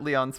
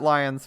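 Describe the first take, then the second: First: The name sounds like Lee-on, two syllables. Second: The name sounds like the word lion. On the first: The speaker calls it right. "I'll pronounce it Leon" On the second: The speaker calls it wrong.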